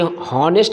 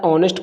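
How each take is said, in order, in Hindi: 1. यह शब्द h की ध्वनि से शुरू होता है। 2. यह शब्द स्वर ध्वनि से शुरू होता है। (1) "हॉनेस्ट नहीं पढ़ा जाता है" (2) "ऑनेस्ट पढ़ा जाता है, एच वर्ड यहाँ साइलेंट होता है"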